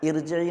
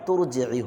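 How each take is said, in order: First: The word starts with a glottal stop. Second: The word starts with a t sound. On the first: The word is read on its own, not joined. The speaker calls it wrong. "इरजिई नहीं होगा" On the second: The word is joined to the word before it. The speaker calls it right. "बल्कि तुरजिई होगा"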